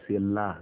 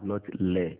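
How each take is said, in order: First: The vowel is an open 'a' sound. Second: The vowel is an 'e' sound. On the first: The speaker calls it right. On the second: The speaker calls it wrong. "not le. Le, saying e is a common mistake"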